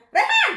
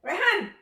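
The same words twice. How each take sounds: First: Very high, very loud name shout; panggilan kencang. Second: Put-on loud, high-pitched call to a child; panggilan umum. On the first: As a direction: shriek out REHAN in one sharp burst. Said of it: "Tapi kalau nadanya". (teriakan nama bernada sangat tinggi) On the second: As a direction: call out REHAN as anyone would. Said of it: "umum manggil gitu ya". (memanggil nama dengan suara tinggi) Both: Shown as a demonstration.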